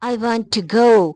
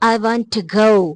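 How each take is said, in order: Both takes have the same delivery.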